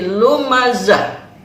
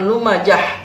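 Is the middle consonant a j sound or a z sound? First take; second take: z sound; j sound. First: The middle consonant is a z sound. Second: The middle consonant is a j sound. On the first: The speaker calls it right. "tapi lumazah" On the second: The speaker calls it wrong. "jangan lumajah"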